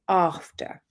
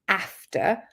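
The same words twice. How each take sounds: First: The first vowel is long, as in car. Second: The first vowel is short, as in cat. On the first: It is the Southern English pronunciation. "I say after" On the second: It is the Northern English pronunciation. "They would also say after"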